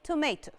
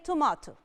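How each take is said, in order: First: It is said with an American accent. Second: It is said with a British accent. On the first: "The Americans say tomato" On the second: "The British people say tomato"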